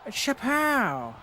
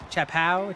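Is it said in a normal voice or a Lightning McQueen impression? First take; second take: Lightning McQueen; normal voice. First: It is said imitating Lightning McQueen. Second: It is said in his normal voice.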